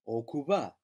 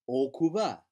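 No difference in how they are said.

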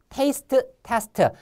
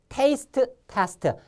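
No difference in how they are said.

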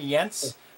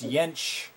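First: The name ends without a sh sound. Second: The name ends with a sh sound. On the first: The speaker calls it wrong. "I was saying Jentzsch" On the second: The speaker calls it right. "With a sh at the end"

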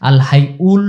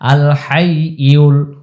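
First: The y sound is dropped from hayyul. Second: The y sound in hayyul is clearly pronounced. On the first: The speaker calls it wrong. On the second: The speaker calls it right.

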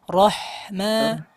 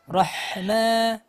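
First: The h sound flows out with audible breath. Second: The same.

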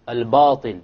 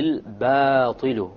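First: The long a vowel is heavy and full. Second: The long a vowel is light and thin. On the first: The speaker calls it wrong. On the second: The speaker calls it right.

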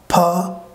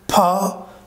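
No difference in how they are said.

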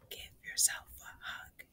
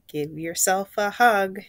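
First: It is said in a whisper. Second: It is said in a normal voice.

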